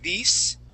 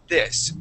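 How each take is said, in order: First: The vowel is a long ee sound. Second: The vowel is a short i sound. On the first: The speaker calls it wrong. "you used the uh, Spanish I sound, saying "these"" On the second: The speaker calls it right. "we want to use the short I sound and say "this.""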